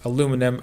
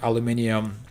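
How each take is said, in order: First: It is said with an American pronunciation. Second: It is said with a British pronunciation.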